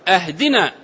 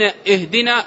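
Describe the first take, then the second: First: The word begins with an a vowel. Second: The word begins with an i vowel. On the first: It asks to be given a gift. The speaker calls it wrong. "ومن الأخطاء التي ترد أن يقول أهدنا الصراط" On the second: It asks to be guided. The speaker calls it right. "اهدنا فعل طلب من هدى يهدي"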